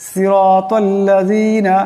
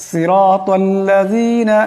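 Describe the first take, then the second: No difference in how they are said.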